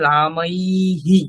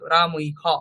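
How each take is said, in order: First: The final breathy h echoes an i vowel. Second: The final breathy h has no vowel after it. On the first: The speaker calls it right. "ওইখানে নিয়ে যেতে হবে" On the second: The speaker calls it wrong. "সেটা বলছি না কেন"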